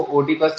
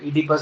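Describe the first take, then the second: First: "ओडिपस" with the O sounded at the start; "ओडिपस", first vowel an O as spelt; wrong pronunciation. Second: "Oedipus" starting on an ee sound, O silent; "Oedipus" with no O heard at the start. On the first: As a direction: say "ओडिपस" opening on a spoken O. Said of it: "इसको ओडिपस नहीं बोलते". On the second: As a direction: say "Oedipus" as EE-di-pus. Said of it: "ओ silent हो जाता है". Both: Shown as a demonstration.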